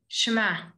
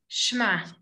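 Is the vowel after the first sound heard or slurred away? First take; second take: slurred; slurred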